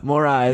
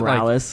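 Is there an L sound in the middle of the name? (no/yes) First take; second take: no; yes. First: The name has no L sound in the middle. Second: The name has an L sound in the middle. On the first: The speaker calls it right. "Say it like that" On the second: The speaker calls it wrong. "I keep wanting to add an L to his last name"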